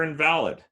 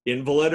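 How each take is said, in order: First: "invalid" as in-VAL-id; second-syllable stress. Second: "Invalid" as IN-vuh-lid; first-syllable stress. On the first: Lecturer offering the other reading, middle-stressed "invalid". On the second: Lecturer quizzing on heteronyms, front-stressed "Invalid". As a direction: stress the start of "Invalid", as the sick person. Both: Shown as a demonstration. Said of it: "where you put the emphasis".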